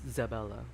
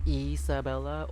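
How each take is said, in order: First: The name begins directly with a z sound. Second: The name begins with a vowel sound.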